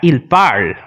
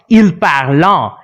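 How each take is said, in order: First: The verb ending is left silent. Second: The verb ending is sounded aloud. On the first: The speaker calls it right. "That is not pronounced at all" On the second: The speaker calls it wrong. "it is not il parlant"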